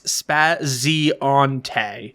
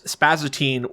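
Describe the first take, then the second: First: The name does not end with 'teen'. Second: The name ends with a 'teen' sound. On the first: The speaker calls it right. "It's Spazionte" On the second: The speaker calls it wrong. "You say it as Spazatine. Where does the teen come from?"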